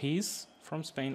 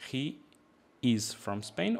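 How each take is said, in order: First: He is is shortened to one syllable. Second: He is is said as two full words.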